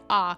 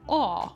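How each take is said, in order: First: An open ah vowel in an American accent. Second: A rounded aw vowel in a British accent. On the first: "An A sounds like ah" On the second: "in British English, if you say an A, sometimes it might sound like aw"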